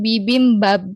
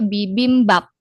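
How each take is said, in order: First: The final sound is a b sound. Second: The final sound is a p sound. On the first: The speaker calls it wrong. "bukan bibimbab, B" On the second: The speaker calls it right. "dibacanya bibimbap, P"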